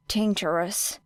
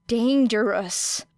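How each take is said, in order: First: Said in the usual way. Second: Dangerous drawn out slowly, falling; slow emphatic. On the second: A narrator's reading. Narrator dwelling on the word, slowly. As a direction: linger on Dangerous, slow and heavy.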